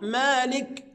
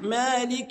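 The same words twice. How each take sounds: First: The final k has no vowel after it. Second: The final k is followed by a short i. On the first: The speaker calls it wrong. "ويسكنها" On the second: The speaker calls it right. "الصحيح"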